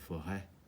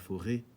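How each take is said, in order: First: The last vowel is an open e sound. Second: The last vowel is a closed e sound. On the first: The speaker calls it right. "tu dis la forêt" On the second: The speaker calls it wrong. "Tu dis pas la forêt"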